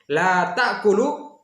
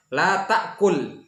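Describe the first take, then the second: First: "ta'kulu" ends in a clear u after the l; final-vowel form. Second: "ta'kul" stops on the l, no vowel after it; sukun on last letter. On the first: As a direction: slowly say "La ta'kulu", voicing the last u. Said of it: "itu kamu tidak makan". ("ta'kulu" berakhir vokal u yang jelas, diucapkan lambat) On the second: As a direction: slowly say "La ta'kul", closing on a vowelless l. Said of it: "sukun huruf terakhir". ("ta'kul" berakhir sukun pada lam, tanpa vokal) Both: Shown as a demonstration.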